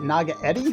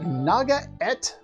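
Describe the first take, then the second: First: The word ends with an 'eddy' sound. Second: The word ends with an 'ette' sound. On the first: The speaker calls it wrong. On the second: The speaker calls it right.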